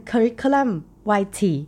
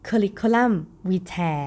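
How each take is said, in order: First: Vitae said American-style as "vai-tee"; American-style "Curriculum Vitae", ending "vai-tee"; American pronunciation. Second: Vitae said British-style as "vee-tae"; British-style "Curriculum Vitae", ending "vee-tae"; British pronunciation. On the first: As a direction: say Vitae with a "vai" first syllable. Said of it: "ทางฝั่งอเมริกันนะคะ ก็จะเป็น". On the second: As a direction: say Vitae with a "vee" first syllable. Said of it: "ออกเสียงแบบอังกฤษ". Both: Shown as a demonstration.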